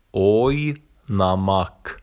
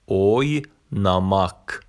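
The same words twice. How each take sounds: The two takes are said the same way.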